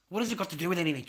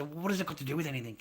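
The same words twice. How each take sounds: First: Raised repeat. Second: Said in the usual way. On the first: Retold or imitated. Repeats the question, louder.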